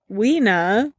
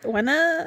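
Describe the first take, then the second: First: "Weena" with a long ee in the first syllable; unsure pronunciation. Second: "Wena" with a short e, higher in pitch; alternative pronunciation. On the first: Host guessing at a group's name, "Weena" with long ee. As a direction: say "Weena" as WEE-nuh. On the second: Host retrying a group's name, "Wena" with short e. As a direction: say "Wena" as WEH-nuh, pitched up. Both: Real, not acted. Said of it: "I don't know how to say it".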